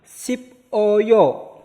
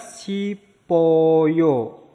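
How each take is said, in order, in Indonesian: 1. Konsonan akhir terpisah dari suku kata berikutnya. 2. Konsonan akhir menyambung ke suku kata berikutnya.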